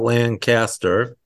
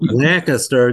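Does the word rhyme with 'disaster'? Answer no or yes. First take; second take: yes; no. First: The word rhymes with disaster. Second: The word does not rhyme with disaster. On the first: This is not how the locals say it. The speaker calls it wrong. "not Lancaster" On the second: This is how the locals say it. The speaker calls it right. "Lancaster does not rhyme with disaster. It's Lancaster"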